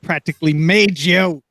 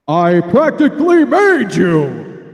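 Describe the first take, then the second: First: It is said in a normal speaking voice. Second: It is said in a put-on supervillain voice.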